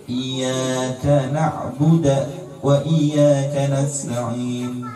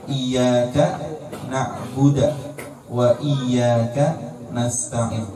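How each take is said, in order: No difference in how they are said.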